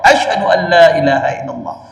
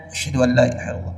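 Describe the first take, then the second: First: It is said loudly, with a raised voice. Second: It is said quietly, in a low voice.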